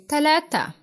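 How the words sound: It is said in Egyptian Arabic.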